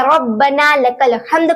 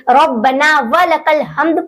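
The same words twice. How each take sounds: First: "रब्बना लकल" with nothing between the words; correct recitation. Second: "व" added between "रब्बना" and "लकल"; inserted wa. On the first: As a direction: say "लकल" straight after "रब्बना". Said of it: "तो सही है". ("रब्बना लकल" बिना "व" के) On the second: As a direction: slip an extra wa before "लकल". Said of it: "कुछ लोग". ("लकल" से पहले "व" जोड़कर) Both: Shown as a demonstration.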